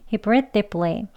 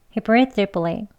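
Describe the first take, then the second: The two takes are said the same way.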